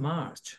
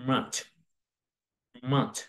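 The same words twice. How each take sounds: First: Said in the usual way. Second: মার্চ with silent r, "maach"; isolated model of মার্চ as r-less "maach"; correct English pronunciation. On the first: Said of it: "আমরা সবসময় এভাবে করে থাকি". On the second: Shown as a demonstration. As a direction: drop the r in মার্চ, one short "maach". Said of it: "এর সঠিক উচ্চারণ হচ্ছে".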